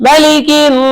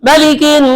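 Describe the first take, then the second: Both takes have the same delivery.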